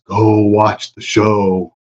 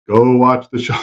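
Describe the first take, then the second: First: Slow, commanding Jedi voice; Jedi mind trick. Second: Said in the usual way. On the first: Pretend. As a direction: lay the Force on them, slowly. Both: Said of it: "I'm gonna use the force".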